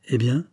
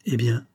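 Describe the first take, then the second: First: "Eh bien" rising as a question; "Eh bien" with an expectant upward tune; questioning prompt. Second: Mildly faltering "Eh bien", falling at the end; a touch of a stammered question. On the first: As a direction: prompt with "Eh bien", lifting the end. Son prompts his hesitating father. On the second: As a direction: let "Eh bien" drop uncertainly. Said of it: "balbutia Lucien". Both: A narrator's reading.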